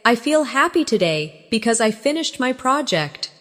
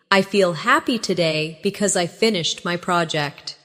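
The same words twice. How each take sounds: First: Said in the usual way. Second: Practice take. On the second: Shown as a demonstration. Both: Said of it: "Practice these with me".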